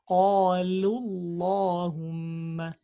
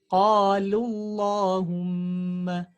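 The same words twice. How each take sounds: No difference in how they are said.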